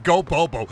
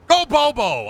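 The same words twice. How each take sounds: First: Said in the usual way. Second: High-pitched rallying yell; playful yelling. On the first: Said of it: "I don't know why I said". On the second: Pretend. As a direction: cheer it out like a chant. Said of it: "I'm just yelling".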